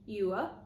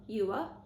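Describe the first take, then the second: First: Two syllables with a short, quick oo vowel. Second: The same.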